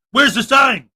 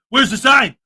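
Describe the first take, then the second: First: Mock shout. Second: Said in the usual way. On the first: Mock auditor demanding a sign.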